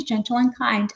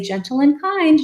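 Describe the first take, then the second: First: Softer repeat of "gentle and kind"; softer gentle reminder. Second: High sing-song "Gentle and kind"; gentle reminder. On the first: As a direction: let the phrase settle, quieter. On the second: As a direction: soothe a flailing child with the phrase. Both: Shown as a demonstration. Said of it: "you just say".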